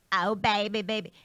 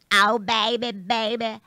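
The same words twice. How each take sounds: First: Breathy pop-star coo, peach in the mouth. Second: Louder, fuller pop-star coo; sing-song like a peach in your mouth; breathy pop-star impression, pushed harder. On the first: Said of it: "the way that I imagine [name] is". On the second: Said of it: "I imagined having a peach in my mouth". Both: Shown as a demonstration.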